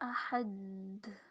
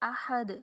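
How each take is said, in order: First: The final consonant is held without any release. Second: The final consonant is released with a short bounce. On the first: The speaker calls it wrong. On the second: The speaker calls it right.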